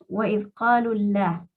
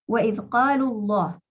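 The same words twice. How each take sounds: First: The L in Allah is light and soft. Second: The L in Allah is heavy and strong. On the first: The speaker calls it wrong. "porque eso está mal" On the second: The speaker calls it right. "pronunciamos con fuerza la lam de Allah"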